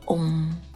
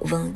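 First: The syllable is an open, throaty, nasal sound. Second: The syllable is said without an open throaty sound. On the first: The speaker calls it right. "它是一个开口的喉音，通过喉咙的震动带上鼻音" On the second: The speaker calls it wrong. "这个字呢它不读嗡"

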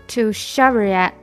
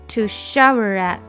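No difference in how they are said.

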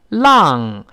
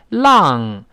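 First: The vowel is spread too wide. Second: The vowel is spread too wide.

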